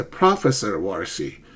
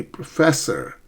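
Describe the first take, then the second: First: "Professor" stressed on first syllable, lower pitch; misplaced stress. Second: "professor" with the stress on FES; stress on second syllable. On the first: Student repeating the error to a confused listener, "Professor" stressed on first syllable. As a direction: say "Professor" as PRO-fessor, stress up front. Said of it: "my students often make stress errors". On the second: Teacher correcting students' stress error, "professor" stressed on second syllable. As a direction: hit the middle syllable of "professor". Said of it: "The second syllable".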